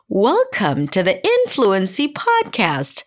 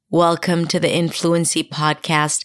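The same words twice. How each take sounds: First: The pitch moves up and down with melody. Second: The pitch stays flat without melody. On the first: "I wanted to do something like" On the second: "I took out the melody completely off my speech. So I spoke in monotone"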